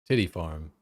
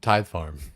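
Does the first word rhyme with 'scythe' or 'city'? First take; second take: city; scythe. First: The first word sounds like titty. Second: The first word rhymes with scythe. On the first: The speaker calls it wrong. "people are memeing or whatever, mispronouncing" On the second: The speaker calls it right. "it's like tithe, like you know, for church"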